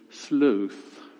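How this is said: It is said with a British accent.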